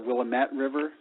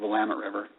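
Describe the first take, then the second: First: The name is said in a French-sounding way. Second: The name is said in a plain English way. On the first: The speaker assumed a foreign origin. The speaker calls it wrong. "thinking that it was French" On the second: The speaker uses the local name. The speaker calls it right. "in reality it's just the Willamette River"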